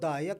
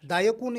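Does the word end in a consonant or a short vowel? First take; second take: consonant; short vowel. First: The word ends on a consonant sound. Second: The word ends with a short u vowel. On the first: The speaker calls it right. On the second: The speaker calls it wrong.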